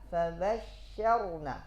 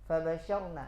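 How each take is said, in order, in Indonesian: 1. Bunyi sh ditahan dan didobel. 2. Bunyi sh pendek dan tunggal. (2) "Hilang satu huruf"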